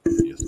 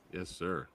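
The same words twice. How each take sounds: First: High, delighted yes sir; excited. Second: Said in the usual way. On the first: Real, not acted. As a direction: cheer it out. Host answering guest with enthusiasm.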